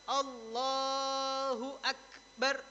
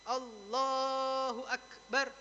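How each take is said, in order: No difference in how they are said.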